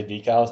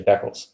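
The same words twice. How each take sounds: First: DECALS as "DEE-kals"; long-E decals. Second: DECALS as "DECK-uls"; short-E decals. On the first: Co-host shows what other people say, long E. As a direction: stretch the first syllable to "dee" in DECALS. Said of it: "legitimately say decals". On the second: Co-host shows what we say, short E. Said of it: "we just say decals". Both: Shown as a demonstration.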